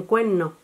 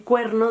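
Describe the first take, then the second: First: Cuerno with the R aspirated before N, cuehno; Canarian cuerno. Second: Said in the usual way. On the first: Shown as a demonstration. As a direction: breathe the R of cuerno as an h. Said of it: "dicen cuerno". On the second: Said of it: "en vez de decir cuerno".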